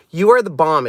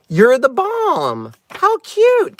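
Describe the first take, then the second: First: Said in the usual way. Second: Higher, drawn-out exclamation; delighted exclamation. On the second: Real, not acted. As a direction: coo over a card, slowly. Exclaims over front of card.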